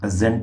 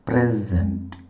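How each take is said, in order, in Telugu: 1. Stress రెండవ syllable పై ఉంది. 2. Stress మొదటి సిలబుల్ పై ఉంది. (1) "రెండవ సిలబుల్ మీద ప్రెజెంట్ మీద స్ట్రెస్ మార్క్ ఉంటుంది" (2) "మొదటి సిలబుల్ పైన స్ట్రెస్ ఉంటుంది"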